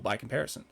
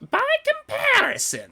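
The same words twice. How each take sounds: First: It is said in a plain, natural voice. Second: It is said in a put-on character voice.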